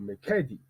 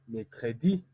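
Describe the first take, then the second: First: The stress is not on the last syllable. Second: The stress is on the last syllable. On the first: The speaker calls it wrong. "on ne peut pas dire mercredi" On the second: The speaker calls it right. "On dit mercredi, plus accentué"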